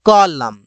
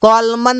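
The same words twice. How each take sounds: First: कॉलम ending on m, silent n; कॉलम said as kolum; correct pronunciation. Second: कॉलमन with the final n sounded; कॉलमन said as kolmun; wrong pronunciation. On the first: (कॉलम, एन नहीं बोला) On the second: (कॉलमन, एन बोलकर गलत तरीका) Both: Shown as a demonstration. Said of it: "कॉलमन नहीं बोलते".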